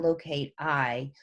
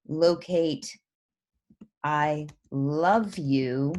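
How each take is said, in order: First: Slow "locate I" with a pause hanging after it; broken line, hesitating. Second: Slow, run together as a full sentence; read as one sentence. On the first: Teacher shows students the line break, hesitant and slow. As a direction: let "locate I" hang as a command, slowly. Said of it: "for a second you hesitate". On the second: Teacher shows students the unbroken line, slowly read. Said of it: "if it just read". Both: Shown as a demonstration.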